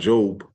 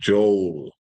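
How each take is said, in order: First: The final L sound is dropped. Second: The final L sound is clearly pronounced. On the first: The speaker calls it wrong. "not Job" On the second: The speaker calls it right. "you gotta hit that L on the end, like Joel"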